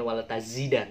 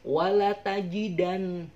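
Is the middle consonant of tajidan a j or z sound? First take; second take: z; j. First: The middle consonant is a z sound. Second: The middle consonant is a j sound. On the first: The speaker calls it wrong. "bukan wala tazidan" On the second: The speaker calls it right. "tapi wala tajidannahum"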